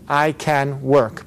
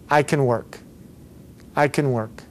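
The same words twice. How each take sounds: First: "can" with a full A, every word slow and separate; slow word-by-word delivery, "can" unreduced; over-careful can. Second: "can" said as a quick "kun"; weak schwa in "can"; reduced can. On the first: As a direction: spell out "can" slowly and unnaturally. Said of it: "but nobody speaks like that". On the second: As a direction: model "can" unstressed, running into "work". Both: Shown as a demonstration.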